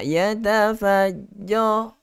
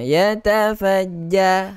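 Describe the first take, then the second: First: The ja sound is heavy and thick. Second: The ja sound is light and thin. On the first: The speaker calls it wrong. "Tak nak ya tafajja. Jo dia dah tebalkan" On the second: The speaker calls it right. "Ja nipis dulu"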